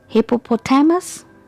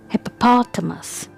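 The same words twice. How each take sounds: First: The stress is not on the 'pot' syllable. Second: The stress is on the 'pot' syllable. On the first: The speaker calls it wrong. "If you say it like this, then it's incorrect pronunciation" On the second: The speaker calls it right. "So here the stress is on P"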